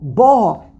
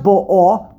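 First: The stress is on the first syllable. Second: The stress is on the last syllable. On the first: It has already arrived. The speaker calls it right. "The darkness has already arrived" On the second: It is arriving now. The speaker calls it wrong. "it's not bo'o"

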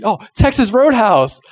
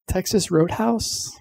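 First: It sounds excited and confident. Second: It sounds doubtful and hopeful, like a question.

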